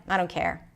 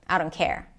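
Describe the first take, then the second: No difference in how they are said.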